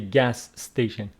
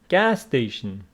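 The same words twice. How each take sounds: First: The stress falls on the second word. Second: The stress falls on the first word. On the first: The speaker calls it wrong. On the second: The speaker calls it right.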